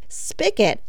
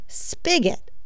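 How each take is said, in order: First: The middle consonant is a hard k sound. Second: The middle consonant is a soft g sound. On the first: The speaker calls it wrong. "S-P-I-C-K-E-T, though commonly said and written, is not actually a word" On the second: The speaker calls it right. "Spigot is the correct answer. S-P-I-G-O-T"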